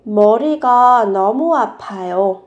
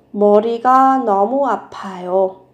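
The two takes are said the same way.

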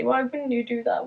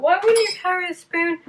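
First: Said in the usual way. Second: Much higher, playful rhetorical question; mock disbelief. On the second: Shown as a demonstration. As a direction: ask it as if it's obvious.

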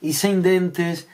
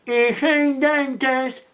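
First: Said in the usual way. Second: "e sen dentes" mushed as if toothless, very slow and high; "e sen dentes" slurred through a toothless mouth, pitched up; toothless speech. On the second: Acted. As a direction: say "e sen dentes" with no teeth, drawn out. Toothless mouth acted on these words.

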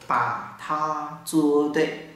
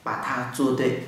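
First: Slow demo. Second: Said in the usual way. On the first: Shown as a demonstration. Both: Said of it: "hãy làm đúng đi".

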